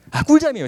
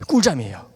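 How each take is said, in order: First: 꿀잠이에요 high and loud with joy; blissful exclaim. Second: Said in the usual way. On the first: Shown as a demonstration. 화해 후 푹 잔 기쁨을 회중에게 외치는 화자, high loud delight. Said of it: "진짜". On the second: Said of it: "아, 꿀잠이에요, 진짜".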